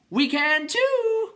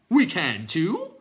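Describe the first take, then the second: First: Very high, drawn-out yell; called down. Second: High, loud, drawn-out clown retort; defiant clown. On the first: Clown calling down to Bastian, shrieking long yell. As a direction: holler it down from a height, stretched out. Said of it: "the first called down to Bastian". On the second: Clown answering the others, loud drawn-out retort. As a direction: stretch it out like a cheeky creature. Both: A narrator's reading.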